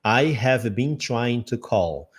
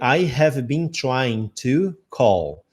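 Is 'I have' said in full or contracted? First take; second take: full; full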